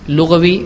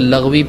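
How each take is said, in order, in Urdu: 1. یہ 'lughat' کی جڑ کی آواز سے ادا کیا جاتا ہے۔ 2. یہ 'laghw' کی جڑ کی آواز سے ادا کیا جاتا ہے۔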